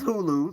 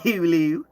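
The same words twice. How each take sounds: First: Hulu is said in a plain, unexaggerated way. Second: Hulu is said with an exaggerated, stereotyped accent. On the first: This is how locals really say it. The speaker calls it right. "Hulu is Hulu. Like it's just what it is" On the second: This is how outsiders imagine locals say it. The speaker calls it wrong. "They think we say Hulu like Hulu. ... Not Hulu"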